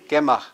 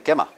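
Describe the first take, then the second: First: The word is said in its full form. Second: The word is said in a casual, clipped form.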